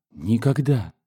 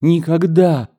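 First: First refusal, held back; understated cry of protest; restrained exclamation. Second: High, raised cry of refusal; emphatic exclamation. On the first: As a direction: exclaim it without raising the voice. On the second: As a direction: cry it out higher, with full insistence. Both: A narrator's reading. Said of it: "снова воскликнула она".

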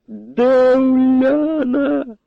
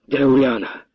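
First: Wild bark. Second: Said in the usual way. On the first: A narrator's reading. The captain roars at the colonel for his daughter, wild bark. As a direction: bellow it at the colonel, drawn out. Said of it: "дико гаркнув сотник". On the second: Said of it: "не привітавшись, виболошився на полковника".

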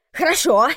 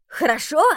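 First: Хорошо! loud and falling hard; Jeremy spitting the word back at Chia; outraged exclamation. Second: Хорошо? thrown back high with a rising question; Jeremy echoing Chia in outrage; indignant echo. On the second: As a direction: echo Хорошо? in disbelief, pitch climbing. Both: Acted. Jeremy echoes her word.

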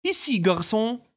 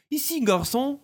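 First: «Иси, гарсон!» said slowly and distinctly, as French "ici, garçon"; clear French demo. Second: Put-on «Иси, гарсон!» repeated clearly for the children; French phrase demo. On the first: Artemis demonstrating the French phrase for the twins slowly. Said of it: "отчётливо произносите". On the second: Artemis prompting the twins to repeat the French. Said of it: "Поднимите один палец и скажите". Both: Shown as a demonstration.

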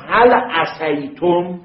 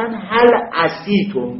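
First: «عَصَیتم» slow, with a clear a after ص; «هل عصیتم» read slowly with fatha on the ص. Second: «عِصیتم» slow, kasra instead of fatha before the ی. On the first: («عصیتم» آهسته و با فتحه روی ص) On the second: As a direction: read «هل عصیتم» slowly the Arab way, with i on the ص. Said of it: "ما قبلشو کسره دادن به جای فتحه". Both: Shown as a demonstration.

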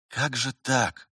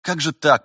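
First: Slow, understated dismay; bewildered. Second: Higher, louder bewildered exclamation; dismayed aloud. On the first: Vitaly wonders privately behind the master, bewildered. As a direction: wonder helplessly, drawing it out. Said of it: "думал Виталий растерянно". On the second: Vitaly voices his thought aloud, dismayed. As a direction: let the dismay burst out aloud. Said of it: "пробормотал он вслух". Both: A narrator's reading.

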